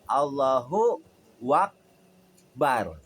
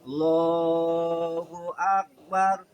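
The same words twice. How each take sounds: First: A voweled 'wa' is inserted before 'akbar'. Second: The initial 'a' sound is dropped. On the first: "ditambahkan di tengah pakai waw" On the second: "dibuang di depan huruf alif"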